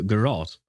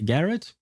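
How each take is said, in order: First: "garrote" with weight on ROT, settling downward; "garrote" ending like "rot"; second-syllable stress. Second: Questioning "garrote", weight on the first syllable; "garrote" with a weak second syllable; first-syllable stress. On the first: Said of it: "I think is how you pronounce it". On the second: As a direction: say "garrote" as GARR-ut, like Garrett. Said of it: "how you pronounce it". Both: Shown as a demonstration.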